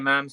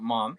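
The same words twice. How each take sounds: First: It is said with an Irish accent. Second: It is said with an American accent.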